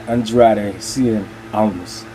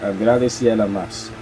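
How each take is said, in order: First: The name is pronounced with English sounds. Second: The name is pronounced with Spanish sounds. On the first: The speaker calls it wrong. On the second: The speaker calls it right. "the correct pronunciation in Spanish"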